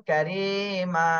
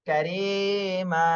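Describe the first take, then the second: No difference in how they are said.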